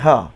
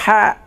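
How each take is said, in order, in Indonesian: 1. Bunyi h-nya ringan dan berdesah seperti h biasa. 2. Bunyi h-nya kasar dan tegang dari tekak. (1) "semua jadi ha, ha, ha, ha bulat tu" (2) "Bukan ha pedas"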